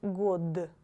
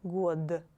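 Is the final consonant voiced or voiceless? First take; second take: voiced; voiced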